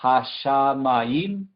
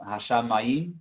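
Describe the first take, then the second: First: Hashamayim very slow, syllable by syllable; drawn-out pronunciation demo. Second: Said in the usual way. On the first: Shown as a demonstration. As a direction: sound out hashamayim with long, separated syllables. (hashamayim pronunciado muy lento, sílaba por sílaba) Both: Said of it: "Y después la segunda parte".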